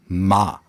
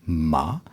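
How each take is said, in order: First: The pitch falls throughout. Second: The pitch rises throughout. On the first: "der fallende Laut" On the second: "einen aufsteigenden Laut"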